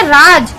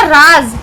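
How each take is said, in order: First: राज with a plain j at the end; plain j sound. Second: राज ending in a buzzing z, राज़; nukta z sound. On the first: Teacher reads राज without nukta to class. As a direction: say राज with a regular j. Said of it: "तो इसको कैसे पढ़ेंगे?". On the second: Teacher reads राज़ with nukta to class. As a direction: finish राज with a voiced z. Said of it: "और यहाँ पर नुक्ता लग गया". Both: Shown as a demonstration.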